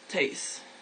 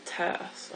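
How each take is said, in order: First: The vowel glides toward an 'ee' sound. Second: The vowel stays steady with no glide. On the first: This is the regional Gotland form. "this is like the area specific word for girl" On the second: This is the speaker's home form. "We would say it without the the uh, the the I"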